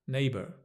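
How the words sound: It ends with a slight R sound. "in the U S, there's more of a neighbour"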